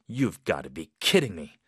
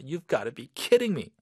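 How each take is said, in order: First: It is said in a heavy, serious tone. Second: It is said in an annoyed, irritated tone.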